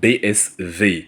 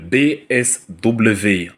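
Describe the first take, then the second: First: The last letter is named as German fau. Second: The last letter is named as French double-vé.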